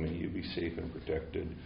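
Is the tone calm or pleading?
calm. It is said in a calm, settled tone. The wish is held from a balanced, steady place. "I'm completely in balance, I'm sitting here"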